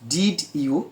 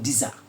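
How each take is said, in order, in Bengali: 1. দুটো শব্দই পুরোপুরি আর আলাদাভাবে বলা হয়। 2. শব্দ দুটি মিশে একটি হয়ে যায়, শুনতে লাগে 'dija'-র মতো।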